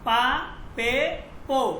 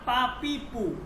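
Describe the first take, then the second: First: The last two vowels sound like 'e' and 'o'. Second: The last two vowels sound like 'i' and 'u'. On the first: The speaker calls it right. "ফার্সিতে ... উচ্চারণ হবে কি পা পে পো" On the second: The speaker calls it wrong. "Not"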